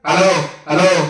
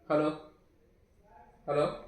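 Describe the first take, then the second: First: The voice is heard amplified through a loudspeaker. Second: The voice is heard without loudspeaker amplification. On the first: "చూడండి sound వస్తుంది చూడండి" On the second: "రావట్లేదు అనుకుంటున్నారా?"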